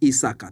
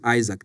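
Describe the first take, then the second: First: The name ends with an added vowel sound. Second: The name ends with a k consonant sound. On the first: "they call me Isaka" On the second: "they couldn't pronounce the name Isaac"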